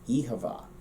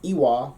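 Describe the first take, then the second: First: The second word has a clear v sound. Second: The second word is a short w syllable. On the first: "from Munster, the first word changes slightly, and then you also get the V sound in the second word" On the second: "for us, Connacht, it's Iwa"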